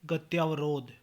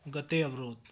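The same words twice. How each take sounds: First: गत्यावरोध with long tyaa; mispronunciation. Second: Said in the usual way. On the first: Shown as a demonstration. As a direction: open गत्यावरोध to gat-YAA-varodh. (गत्यावरोध, लंबा त्या) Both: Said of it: "गत्यावरोध नहीं".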